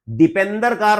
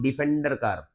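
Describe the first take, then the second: First: The word is said with a 'p' sound. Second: The word is said with an 'f' sound. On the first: The speaker calls it wrong. "नहीं बोल रहा" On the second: The speaker calls it right. "मैं बोल रहा हूं"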